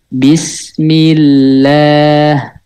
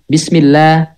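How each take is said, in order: First: The word is said at a slow pace. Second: The word is said at a fast pace. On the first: "Itu lambat cara bacanya" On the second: "Jadi harokatnya bacanya cepet"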